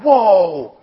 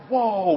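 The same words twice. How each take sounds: First: Louder, drawn-out whoa of wonder; awed whoa. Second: Said in the usual way. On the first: Retold or imitated. Kids seeing Jesus with wide eyes, awed whoa. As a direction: let the whoa stretch in amazement. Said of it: "their eyes are wide open". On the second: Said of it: "they're like".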